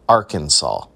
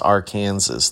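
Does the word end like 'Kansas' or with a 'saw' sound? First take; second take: saw; Kansas. First: It ends with a saw sound. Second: It ends like the word Kansas. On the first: The speaker calls it right. "The correct pronunciation is Arkansas" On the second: The speaker calls it wrong. "we are not going to be known as Arkansas"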